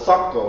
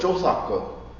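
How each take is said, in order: First: The word is said with two syllables. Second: The word is said with three syllables. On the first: This is the form used today. "We call it" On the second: This is an older form. "In the older, a little bit older days"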